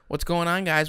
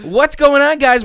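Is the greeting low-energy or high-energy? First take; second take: low-energy; high-energy. First: It is said with low energy. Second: It is said with high energy.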